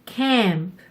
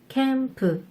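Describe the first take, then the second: First: It ends on a bare p with no vowel. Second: It ends with an extra vowel after p. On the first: "맨 마지막에 P의 소리가 모음 없이 단독으로 소리가 나요" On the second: "맨 마지막에 으 라는 모음을 넣어주어야"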